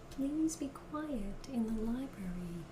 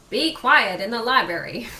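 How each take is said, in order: First: It is said in a polite voice. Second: It is said in a less polite voice.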